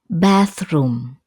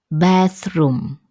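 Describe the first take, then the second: The two takes are said the same way.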